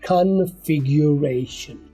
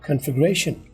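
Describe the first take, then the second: First: It is said slowly with a clear 'gyu' sound. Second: It is said quickly with the 'yu' sound reduced. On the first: "slow बोलो तो slow motion दे देता हूँ" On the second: "लेकिन तेज बोलो"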